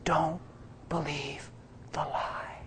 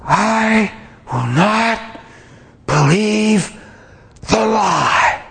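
First: Soft breathy whisper, fading to nothing; gentle whisper. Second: Drawn-out, high, crying shout; passionate yell. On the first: The inner voice whispering gently to the preacher, soft whisper. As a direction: whisper it tenderly like a still small voice. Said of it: "it whispered so gentle". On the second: Preacher shouting defiance at the attack, crying yell. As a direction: cry it out slowly with everything in you. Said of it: "I yelled it loud". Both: Retold or imitated.

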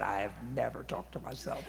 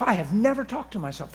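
First: Soft, low mock-innocent denial. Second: Said in the usual way. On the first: Speaker denying to coworkers, mock-innocent and soft. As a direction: murmur it like a fake innocent protest. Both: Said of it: "I said".

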